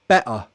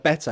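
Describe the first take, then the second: First: The middle T is a glottal stop. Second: The middle T is a clear, full T. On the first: "Cockney might do it glottally" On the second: "I pronounce it as a true T"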